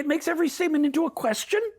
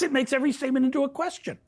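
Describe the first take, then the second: First: The voice rises at the end like a question. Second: The voice falls at the end like a statement.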